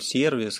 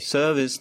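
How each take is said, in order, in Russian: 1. Оно произносится по-русски. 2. Оно произносится по-английски. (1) "буду произносить по-русски" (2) "По-английски там есть отличия"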